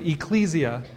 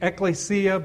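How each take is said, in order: First: The word is pronounced an Anglicized way. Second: The word is pronounced the Greek way. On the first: "So they pronounce it Ecclesia Baptist Church" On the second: "the Greek pronunciation's ekklesia"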